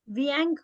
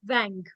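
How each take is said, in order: First: The vowel glides from ee into a nasal ang. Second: The vowel is a single straight nasal sound. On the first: The speaker calls it wrong. "नहीं" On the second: The speaker calls it right. "Straight wang"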